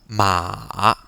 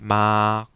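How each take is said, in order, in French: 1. La hauteur descend puis remonte. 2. La syllabe est tenue longtemps sur une hauteur égale. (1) "vous devez descendre votre ton et après, il faut remonter" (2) "Il faut le prolonger"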